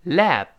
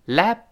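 First: "Lap" with the final p popped; released plosive p. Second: "lap" with lips shut on a silent p; unreleased p. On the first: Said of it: "是个爆破音". ("Lap"结尾的p爆破出来) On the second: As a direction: hold the breath at the end of "lap". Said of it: "失去爆破". ("lap"双唇闭紧，失去爆破) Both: Shown as a demonstration.

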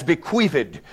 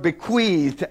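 First: "bequeathed" in three syllables, be-QUEATH-ed; "bequeathed" with a separate final -ed; extra final syllable. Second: "bequeathed" with no extra final syllable; "bequeathed" ending straight on a voiced thd; one-syllable ending. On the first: Acted. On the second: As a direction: say "bequeathed" as two syllables, be-QUEATHD. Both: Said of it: "pronounce the word bequeathed as bequeathed".

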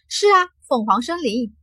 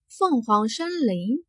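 First: Understated wistful confirmation of 凤凰森林; voice sinking, wistful. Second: Slow, drawn-out 凤凰森林 as a question. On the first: Xiao Jin answers master about the forest, 凤凰森林 faintly wistful. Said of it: "小金的语气缓缓地低落了下来". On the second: Jin Hong asks Xiao Jin about the forest, 凤凰森林 slow and questioning. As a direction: stretch out 凤凰森林, asking with mild interest. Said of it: "颇有些欣慰地问道". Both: A narrator's reading.

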